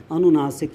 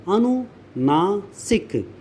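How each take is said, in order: First: Said in the usual way. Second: अनुनासिक very slowly as अनु, ना, सिक; slow syllable breakdown. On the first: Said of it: "वो भी अनुनासिक ही होगा". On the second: Shown as a demonstration. Teacher spelling out the term, अनुनासिक slow and split in parts. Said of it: "यानी".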